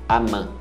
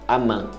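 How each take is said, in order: The two takes are said the same way.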